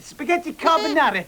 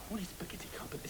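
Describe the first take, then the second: First: Mock Italian accent. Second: Fast, voiceless whisper; whispered aside. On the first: Waiter covering ignorance for the diner, mock Italian accent. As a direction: announce it in hammed-up Italian English. Back to waiter act for customer. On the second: Acted. Waiter secretly asking staff what it is, quick whisper. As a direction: hiss a hurried question under the breath. Clueless aside behind customer's back.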